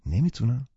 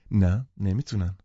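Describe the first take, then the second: First: نمیتونن؟ asked with a rising tune; doubtful echo نمیتونن؟ lifting at the end; questioning. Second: نه stressed, نمیتونن falling flat and sure; firm confirmation. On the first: Narrator echoing her claim back to her, rising in doubt. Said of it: "گفتم". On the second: Catherine confirming firmly to the narrator, falling tune. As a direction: settle it: نه, نمیتونن with a falling end. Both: A narrator's reading.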